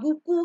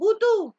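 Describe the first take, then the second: First: The middle consonant is a K sound. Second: The middle consonant is a T sound. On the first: The speaker calls it right. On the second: The speaker calls it wrong.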